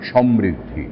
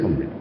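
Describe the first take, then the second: First: The name is said sharply and forcefully. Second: The name is said weakly and indistinctly. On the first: The name comes across clearly. The speaker calls it right. "বেশ ধারালো, জোরালো" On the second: Nobody can understand the name. The speaker calls it wrong. "এত ম্রিয়মাণ হয়ে কেন বলবো?"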